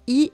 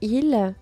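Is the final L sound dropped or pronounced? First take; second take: dropped; pronounced. First: The word is said without the final L. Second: The word is said with the final L. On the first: The speaker calls it right. "On dit i" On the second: The speaker calls it wrong. "et non il"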